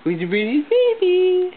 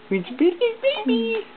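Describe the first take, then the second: First: Higher, louder sing-song coo. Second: Even higher coo. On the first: Parent cooing at the baby in high sing-song. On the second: Parent cooing at the baby, pitched up even higher. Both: Real, not acted.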